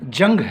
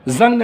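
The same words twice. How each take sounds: First: It is pronounced like the word for war. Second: It is pronounced like the word for rust. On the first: It means a fight or war. The speaker calls it right. "जंग है ... जंग मतलब लड़ाई" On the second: It means rust on iron. The speaker calls it wrong. "जंग नहीं ... जंग तो लोहे वाला है"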